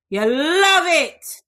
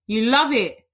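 First: Slow, higher, louder teasing "You love it"; drawn-out teasing. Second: Said in the usual way. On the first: Shown as a demonstration.

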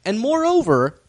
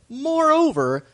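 First: Said in the usual way. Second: "moreover" repeated much higher, drawn out; emphatic repeat. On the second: Shown as a demonstration. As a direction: lift "moreover" high for drama.

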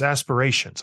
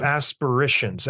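First: Said in the usual way. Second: "aspirations" said as "asper-ishuns"; fumbled pronunciation. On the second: Real, not acted. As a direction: say "aspirations" with a short "ish" for the "ay-sh". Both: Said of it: "I don't know what the word is".

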